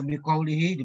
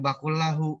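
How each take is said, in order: First: The word ends with an i vowel. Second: The word ends with a u vowel. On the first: The speaker calls it wrong. "Harusnya dibaca bikaulihi" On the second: The speaker calls it right. "dibaca bakul lahu"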